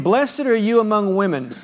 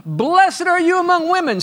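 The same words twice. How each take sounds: First: Raised, earnest reading of the verse; steady pulpit reading; read aloud. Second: Much higher, full-throated holler of blessing; joyful preacher holler. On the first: Shown as a demonstration. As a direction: read the line as scripture, not shouted. Read once, later hollered. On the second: Retold or imitated. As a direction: holler it out like Elizabeth filled with joy. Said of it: "and then she hollers out".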